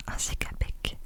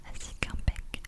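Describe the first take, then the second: No difference in how they are said.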